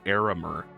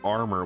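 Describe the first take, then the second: First: The word is said with three syllables. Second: The word is said with two syllables. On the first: The speaker calls it right. "when it's clearly Aramer" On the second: The speaker calls it wrong. "you were pronouncing it armor"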